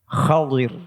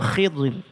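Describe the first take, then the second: First: The first vowel is an 'a' sound. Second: The first vowel is an 'i' sound. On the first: The speaker calls it right. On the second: The speaker calls it wrong. "dibaca kasrah"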